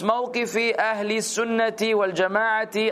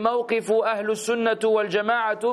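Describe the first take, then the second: First: Each word ends with an i vowel. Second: The words do not end with an i vowel. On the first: The speaker calls it right. "Why did it end with a kasra, kasra, kasra, kasra, kasra all across?" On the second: The speaker calls it wrong. "It's just that it doesn't sound right"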